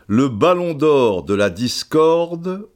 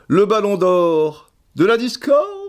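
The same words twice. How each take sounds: First: The voice falls at the end like a statement. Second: The voice rises at the end like a question.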